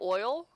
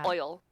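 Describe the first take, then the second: First: The vowel is a plain 'oy' sound. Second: The vowel has a brassy 'eye' sound. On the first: This is the speaker's own usual pronunciation. "I say oil" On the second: This is how someone else pronounces it. "a really kind of like brassy kind of eye in it"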